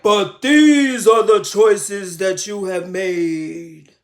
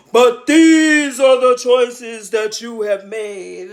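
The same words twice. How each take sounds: First: Slow, low and loud, booming; solemn divine voice. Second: Slow, loud, thundering pronouncement; like many waters thundering; booming divine voice. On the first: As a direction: deliver it like a voice from heaven. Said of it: "a trembling voice". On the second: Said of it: "sounds like a million waters". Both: Retold or imitated.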